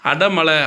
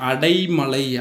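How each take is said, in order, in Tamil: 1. முதல் அசையில் எளிய குறுகிய 'a' உள்ளது. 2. முதல் அசையில் 'ai' இரட்டை உயிரொலி உள்ளது. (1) "அடமழை அப்படின்னு நம்ம சொல்லுவோம்" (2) "அடைமழை அப்படின்றதான் சரியான திருத்தம்"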